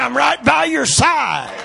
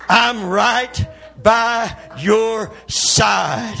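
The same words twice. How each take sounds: First: High, loud shouted promise in one run; climactic preaching shout. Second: Loud, very slow, each word stretched out; drawn-out preaching shout. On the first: Preacher voicing God's promise to the congregation, climactic shout. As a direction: belt it out at the peak of the sermon. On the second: Preacher repeating God's promise to the congregation, drawn-out shout. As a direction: shout it one long word at a time. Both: Acted.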